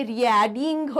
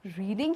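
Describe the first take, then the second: First: रीडिंग misread as "ree-ya-ding", loud and drawn out; wrong pronunciation. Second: Said in the usual way. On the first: Shown as a demonstration. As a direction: split the vowels in रीडिंग into separate sounds, loudly. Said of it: "word थोड़ी हो जाएगा, नहीं ना". (रीडिंग का गलत उच्चारण, "रि-या-डिंग") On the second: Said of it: "sound के हिसाब से हमेशा करो".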